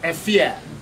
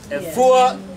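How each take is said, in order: First: The name ends with an 'ee-ah' sound. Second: The name ends with an 'oo-ah' sound. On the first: "We can pronounce it Efua or Efia" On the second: "We can pronounce it Efua or Efia"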